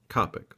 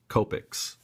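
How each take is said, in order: First: It uses the European pronunciation. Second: It uses the North American pronunciation. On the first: "in like Australia and in Europe they pronounce it Copic, like I do" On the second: "in North America we pronounce it"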